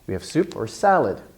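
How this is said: The last word, salad, gets the strongest stress. "the last important word at the end of a sentence, can get even more stress"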